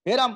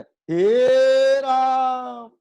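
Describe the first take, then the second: First: The first vowel is held short. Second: The first vowel is held extra long. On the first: "तो ये हो गया ह्रस्व" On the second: "ये हो गया प्लुत"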